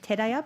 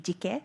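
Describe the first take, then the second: First: The name is read as Teraya. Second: The name is read as Jike. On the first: The speaker calls it wrong. "on the slide it says Teraya" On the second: The speaker calls it right. "this pronunciation should be Jike"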